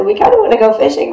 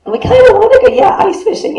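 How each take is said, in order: First: Said in the usual way. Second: High, whiny mock reluctance. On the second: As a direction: pitch it up like a reluctant kid. Mocking congregation's half-hearted answer.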